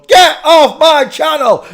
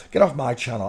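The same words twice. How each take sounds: First: Slow, very high, very loud hammed-up yell; mock furious shout. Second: Said in the usual way. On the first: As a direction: scream them off the channel in mock rage. Mock rage at chat viewer.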